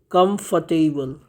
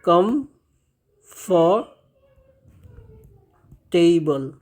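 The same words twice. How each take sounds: First: "कंफर्टेबल" said once more at a slightly slow pace, falling at the end; "कंफर्टेबल" as a short, slightly slow, settled repeat; model pronunciation repeated. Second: "कंफर्टेबल" stretched out very slowly, every syllable drawn long; "कंफर्टेबल" said very slowly, syllable by syllable, with a falling end; slow model pronunciation. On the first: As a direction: repeat "कंफर्टेबल" plainly and a bit slowly. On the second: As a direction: draw out "कंफर्टेबल" slowly so students catch each sound. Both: Shown as a demonstration. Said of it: "इस शब्द का सही उच्चारण होता है".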